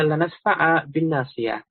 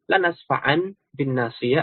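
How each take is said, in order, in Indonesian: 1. Kata kerjanya berakhir dengan vokal 'a' panjang. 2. Kata kerjanya berakhir dengan bunyi 'n'. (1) "diganti dengan alif" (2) "bisa dibaca dengan nun"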